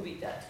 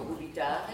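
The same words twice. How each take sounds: First: "dubitate" accented early, on DU, with a short middle; accent sur l'antépénultième. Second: "dubitare" with a long, accented next-to-last syllable; accent sur l'avant-dernière. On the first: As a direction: stress the DU in "dubitate". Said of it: "l'avant-avant-dernière". (« dubitate » accentué sur DU) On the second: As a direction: stress the TA in "dubitare". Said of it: "l'accent est sur l'avant-dernière". (« dubitare » accentué sur TA) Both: Shown as a demonstration.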